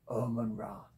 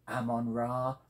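First: The first word begins with an 'oh' vowel. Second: The first word begins with an 'ah' vowel. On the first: The speaker calls it wrong. "not Omon Ra, as it looks to be" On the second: The speaker calls it right. "I'm assured that is the correct pronunciation"

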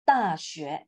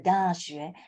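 First: The word has no extra 'de' sound. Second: The word carries an extra 'de' sound. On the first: The speaker calls it right. "You need to remove them, okay? So make it" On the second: The speaker calls it wrong. "you have the 大学, the de sound"

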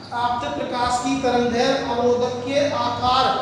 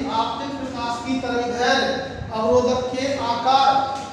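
No difference in how they are said.

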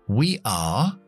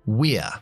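First: It is said as two full words. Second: It is said as one contracted syllable. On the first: "en lugar de we are" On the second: "quitamos la A de nuevo"

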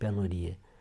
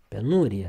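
First: The stress falls on the third syllable. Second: The stress falls on the second syllable. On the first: The speaker calls it wrong. "auzim greșit" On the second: The speaker calls it right. "accentul pe U"

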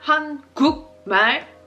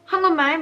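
First: The middle syllable ends in a k sound. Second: The middle syllable ends in an ng sound. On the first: The speaker calls it wrong. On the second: The speaker calls it right.

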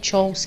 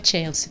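First: The word is pronounced the French way. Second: The word is not pronounced the French way. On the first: The speaker calls it right. "que é sorte do francês" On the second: The speaker calls it wrong. "não é chance"

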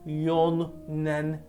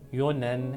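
First: The middle n sound is doubled. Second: The middle n sound is single. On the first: The speaker calls it wrong. "yonen değil değil mi?" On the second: The speaker calls it right. "Bu yüzden ın düşüyor"

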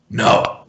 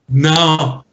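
First: It is said in a put-on character voice. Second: It is said in a voice that does not fit. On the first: The speaker calls it right. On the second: The speaker calls it wrong.

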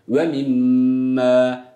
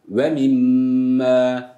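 The two takes are said the same way.

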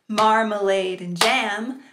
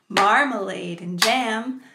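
No difference in how they are said.

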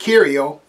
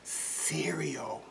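First: The word begins with a hard K sound. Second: The word begins with a soft S sound. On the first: The speaker calls it wrong. "We don't say we want cereal. It doesn't have a K sound" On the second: The speaker calls it right. "A soft C sound"

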